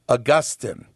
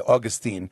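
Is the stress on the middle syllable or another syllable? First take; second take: middle; another. First: The stress is on the middle syllable. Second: The stress is not on the middle syllable. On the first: "you want to put the emphasis on the second to the last syllable again, so they say Augustine" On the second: "We say Augustine and we drop the us at the end"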